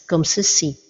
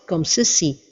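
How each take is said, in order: No difference in how they are said.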